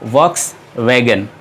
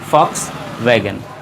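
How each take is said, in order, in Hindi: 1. यह शब्द V ध्वनि से शुरू होता है। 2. यह शब्द F ध्वनि से शुरू होता है। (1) "ये एक गलत प्रोनाउंसिएशन है" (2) "इसे हम प्रोनाउंस करते हैं फॉक्स वैगन"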